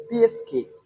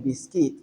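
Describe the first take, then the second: First: "biscuit" with stress on its first syllable, bis. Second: "biscuit" without the stress on its first syllable; wrongly stressed biscuit. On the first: Teacher shows learners the word articulated well, "biscuit" stressed on bis. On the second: Teacher shows learners what to avoid saying, wrongly stressed "biscuit". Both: Shown as a demonstration. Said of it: "the stress is on the first syllable".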